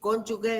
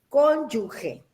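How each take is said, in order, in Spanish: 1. La última sílaba suena como escrita 'gue'. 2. La última sílaba suena como escrita 'ge'. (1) "como todo el mundo lo, lo pronuncia así" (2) "entre la G y la E no hay una U"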